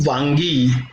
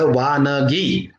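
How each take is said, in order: First: The word is said with two syllables, vangi. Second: The word is said with three syllables, vanagi. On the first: It means eggplants. The speaker calls it wrong. "पुराणातली वांगी अशा पद्धतीचा उच्चार जो केला जातो तो पुराणातली वांगी असा नसून" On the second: It means examples. The speaker calls it right. "वानगी असा उच्चार अपेक्षित आहे"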